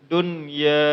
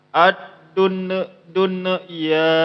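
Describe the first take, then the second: First: The n is clear and joined smoothly to ya. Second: The n bounces, repeating dun before ya. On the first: The speaker calls it right. "Yang betul ialah langsung disambung, cuman dia pendek bacaannya" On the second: The speaker calls it wrong. "Jangan juga dimantulkan"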